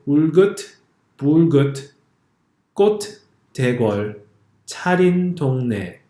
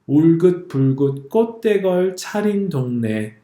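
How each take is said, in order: First: The final T sounds are clearly released and pronounced. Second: The final consonants are held and not released. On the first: The speaker calls it wrong. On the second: The speaker calls it right.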